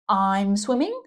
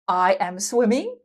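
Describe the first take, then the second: First: I am is contracted into one syllable. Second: I am is said as two full words.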